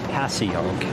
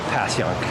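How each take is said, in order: First: It is sounded out as it is spelled. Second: It is said in a partly local way. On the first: The speaker has never seen the word before. "If you had never seen the word in your life, you might say" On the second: The speaker moved to the city a while ago. "if you moved here but have been here for a while, you might say"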